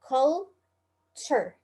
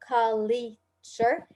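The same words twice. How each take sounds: First: No vowel sound follows the L. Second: An extra vowel sound follows the L. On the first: The speaker calls it right. "it's culture, There is no E after the L" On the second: The speaker calls it wrong. "So it's not culture"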